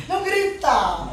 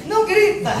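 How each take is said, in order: First: Slow, laughing no-shouting plea; amused, slowed-down rebuke. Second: Loud, high shout of don't shout; self-mocking shouted command. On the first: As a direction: chuckle through the words. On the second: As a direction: yell it at the kids like a frantic parent. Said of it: "Eu tô falando de mim aqui". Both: Shown as a demonstration.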